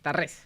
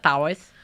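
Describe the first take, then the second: First: The surname is said the Catalan way, stressed at the end. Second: The surname is said the American English way. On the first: This is the name's own pronunciation. The speaker calls it right. "Tarrés es catalán, así que es Tarrés. Con acento" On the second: This is how people in the United States said it. The speaker calls it wrong. "en Estados Unidos me decían"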